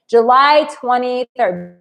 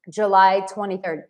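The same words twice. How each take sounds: First: Each word slow and weighted, July twenty-third; emphatic date. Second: Said in the usual way. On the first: Shown as a demonstration. Announcing her birthday date to viewers, slow and emphatic. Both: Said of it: "it is a big day".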